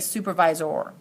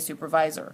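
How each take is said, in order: First: The ending is a full, clear 'or' sound. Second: The ending is a reduced, weak 'er' sound. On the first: The speaker calls it wrong. "we don't say supervisor" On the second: The speaker calls it right. "We say supervisor"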